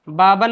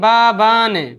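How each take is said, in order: First: The second vowel is short. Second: The second vowel is long. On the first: The speaker calls it wrong. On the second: The speaker calls it right.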